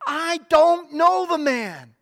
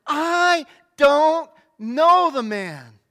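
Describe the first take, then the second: First: Loud, slow, emphatic denial; denial with an oath. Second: Very slow, loud sworn denial, each word dragged out; cursing denial. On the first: Peter denying Jesus to the people at the gateway, loud and firm. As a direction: swear it off, pushing the accusers away. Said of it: "He denied it again with an oath". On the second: Peter swearing at those who heard his accent, slow loud cursing. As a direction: hurl it at them, calling down curses. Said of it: "Then he began to call down curses, and he swore to them". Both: Acted.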